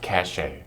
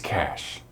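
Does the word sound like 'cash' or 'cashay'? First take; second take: cashay; cash. First: The word ends like 'shay', two syllables. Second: The word sounds like 'cash', one syllable. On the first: The speaker calls it wrong. "Don't say it like sashay" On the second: The speaker calls it right. "Think of it like the word cash"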